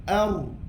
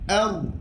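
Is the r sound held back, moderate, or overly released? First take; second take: moderate; moderate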